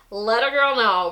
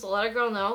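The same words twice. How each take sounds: First: Put-on "let a girl know" said louder, stress on "girl"; emphatic repeat. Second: Said in the usual way. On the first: Shown as a demonstration. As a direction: push "girl" harder the second time.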